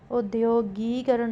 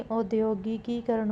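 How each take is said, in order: First: औद्योगिकीकरण shortened to udyogi-karan; wrong pronunciation. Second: औद्योगिकीकरण as aud-yo-gi-ki-karan; correct pronunciation. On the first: Teacher showing a spelling error, औद्योगिकीकरण without "ki". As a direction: leave the "ki" out of औद्योगिकीकरण. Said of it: "नहीं". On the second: Teacher giving the correction, औद्योगिकीकरण with "ki". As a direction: sound every syllable, including "ki", in औद्योगिकीकरण. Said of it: "होगा". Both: Shown as a demonstration.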